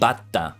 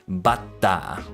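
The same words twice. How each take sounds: First: There is a sharp catch before the 'ta'. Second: The final vowel is stretched out long. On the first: It means grasshopper. The speaker calls it wrong. "I'm saying Bata. That's grasshopper. I shouldn't put that emphasis on da like that" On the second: It means butter. The speaker calls it right. "you say the ah at the end, but you also put the emphasis on ta"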